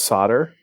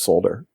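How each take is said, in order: First: It is said the North American way. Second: It is said the Australian way.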